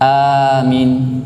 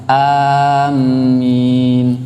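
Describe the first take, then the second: First: Only the first vowel is long. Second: The vowels are said unlike both other versions. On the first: The speaker calls it right. "a-nya yang panjang" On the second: The speaker calls it wrong. "Yang salah itu yang ketiga tadi"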